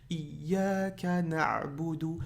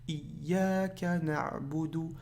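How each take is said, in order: Both takes have the same delivery.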